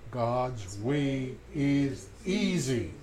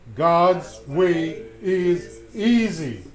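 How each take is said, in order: First: It is said at normal volume. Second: It is said more loudly.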